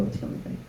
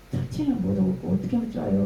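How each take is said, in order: First: Breathy whispered 어떻게 하면 좋아요 repeated softly. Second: Said in the usual way. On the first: Retold or imitated. Praying to God in despair, whispered repeat. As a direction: let the plea fade to a whisper.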